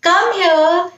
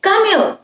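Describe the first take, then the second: First: It is said warmly and affectionately. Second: It is said sharply in an angry tone. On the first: The child is being called with love. "प्यार से जैसे कम here" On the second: The child is not coming and the caller is annoyed. "गुस्से से भी बोल सकते हैं"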